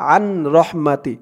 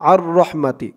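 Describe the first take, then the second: First: The n is pronounced separately before r. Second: The n merges into a doubled r sound. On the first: The speaker calls it wrong. "শব্দটা কেমন যেন আলাদাভাবে হয়ে যায়" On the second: The speaker calls it right. "রর উপরে একটি তাসদিদ দিয়ে এভাবে পড়া যাবে"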